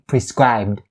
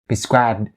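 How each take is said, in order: Both takes have the same delivery.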